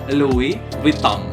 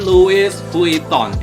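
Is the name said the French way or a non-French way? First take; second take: French; non-French. First: The name is said with French pronunciation. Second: The name is read in a non-French way. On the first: The speaker calls it right. "Ini nih yang bener ya" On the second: The speaker calls it wrong. "Bukan Louis Vuitton ya"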